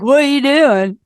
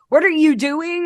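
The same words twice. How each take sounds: First: The words are slurred and run together casually. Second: Each word is pronounced clearly and separately. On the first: "I'm like" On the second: "I like have to enunciate"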